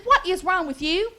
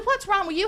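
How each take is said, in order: First: "What is wrong with you" spelled out word by word; emphatic repeated question. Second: Said in the usual way. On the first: Retold or imitated. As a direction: draw out "What is wrong with you" in exasperated mock-mother emphasis. Mother repeats question after his disgust.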